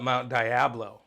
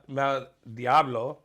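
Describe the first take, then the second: First: Diablo is pronounced the English way. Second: Diablo is pronounced the Spanish way. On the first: This is how other people say the name. The speaker calls it wrong. "but they call it Mount Diablo" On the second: This is how the name should be said. The speaker calls it right. "we have Mount Mount Diablo"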